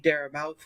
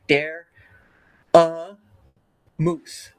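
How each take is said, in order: First: The name ends with a mouth sound. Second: The name ends with a moose sound. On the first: This is how many other people say it. "I know a lot of people say dare mouth" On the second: This is how the speaker usually says it. "I usually sound it out like dare a moose"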